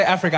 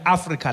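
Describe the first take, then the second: First: Said in the usual way. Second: Africa with open "ah" vowels and tapped r; African pronunciation of Africa. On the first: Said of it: "When I say Africa". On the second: Shown as a demonstration. Comedian tells audience what he really means, Africa said "Ah-free-kah". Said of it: "I mean Africa".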